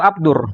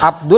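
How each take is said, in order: First: The l merges into the following r. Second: The l sound is kept before Rahim. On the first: The speaker calls it right. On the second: The speaker calls it wrong. "Salah targetnya ini"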